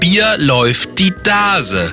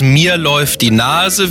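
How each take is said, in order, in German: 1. Die Laute m und n klingen wie d. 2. Die Laute m und n werden normal ausgesprochen. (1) "Aus den Konsonanten M und N wird immer ein D wie Dora" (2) "Aus den Konsonanten M und N wird immer ein D wie Dora"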